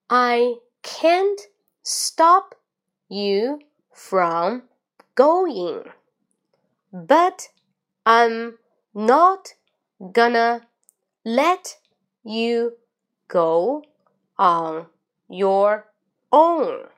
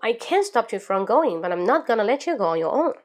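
First: The sentence is read at a slow pace. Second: The sentence is read at a fast pace. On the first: "最后慢中快我再来一遍，跟我一起读" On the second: "最后一遍深吸一口气最快"

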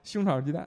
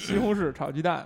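First: Syllables are merged and slurred together. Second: Every syllable is said in full. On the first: "北京人说话口齿不清" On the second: "其实是西红柿炒鸡蛋是吧？"

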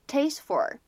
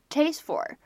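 Both takes have the same delivery.

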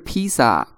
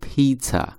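First: The middle consonant is a plain s sound. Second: The middle consonant is a ts sound. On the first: The speaker calls it wrong. "注意它读音不是披萨，披萨是中国人的读音啊" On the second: The speaker calls it right. "正确的这个英文的读法叫做pizza，注意它第二个音是t"

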